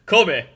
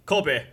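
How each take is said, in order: First: Loud, higher villainess call; Alvida. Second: Said in the usual way. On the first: Acted. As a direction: shout the name in a put-on boss voice. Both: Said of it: "Forgot about the voice".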